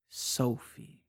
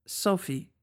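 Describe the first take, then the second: First: Softer and lower, tasting the name; savoring the name. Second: Said in the usual way. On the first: Acted. He repeats her name softly, savoring it. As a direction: roll the name slowly as if tasting it. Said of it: "als würde er ihn kosten". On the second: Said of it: "Überrascht antwortete ich automatisch".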